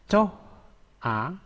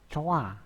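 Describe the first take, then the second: First: The two syllables are said separately. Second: The syllables join with the h dropped.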